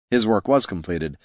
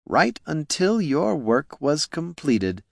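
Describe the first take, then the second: First: Said in the usual way. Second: Slow, higher smug villain drawl. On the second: Acted. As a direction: stretch out the cruelty. Villain Flynn to stabbed Niln.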